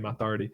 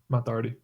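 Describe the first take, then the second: First: The name is said in an Irish accent. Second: The name is said in an English accent. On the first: The speaker calls it right. "instead of saying Matt Doherty" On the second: The speaker calls it wrong. "I just said that like an English person"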